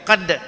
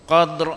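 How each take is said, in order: First: The final r is left out entirely. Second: The final r is sounded with a trill. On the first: The speaker calls it wrong. "Jangan qad" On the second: The speaker calls it right. "ra bunyi"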